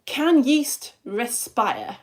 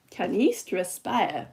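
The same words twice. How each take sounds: First: Slow, stretched question. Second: Slow, lower, odd-sounding take; odd put-on voice. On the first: Teacher asking the class, slow and stretched. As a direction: draw the question out slowly. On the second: Teacher repeats the question in a silly slow voice. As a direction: say it in a strange drawn-out voice. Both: Shown as a demonstration. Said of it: "Don't know why I'm saying it like that".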